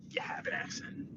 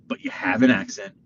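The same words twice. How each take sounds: First: Very soft, voiceless whisper; teasing whisper. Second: Said in the usual way. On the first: Real, not acted. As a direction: whisper it like breaking delicate news. Repeats the news as a whisper.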